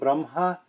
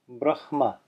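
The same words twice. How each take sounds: First: The h sound comes after the m. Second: The h sound comes before the m. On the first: "notice how I'm saying Brahma" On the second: "what's written is actually Brahma"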